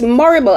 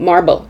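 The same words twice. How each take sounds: First: It is said to rhyme with horrible. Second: It is said like the word marble. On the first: The speaker calls it right. "as in horrible, but with an M, M O R R I B L E" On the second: The speaker calls it wrong. "I thought that was the name of the character, Madame Marble, M A R B L E"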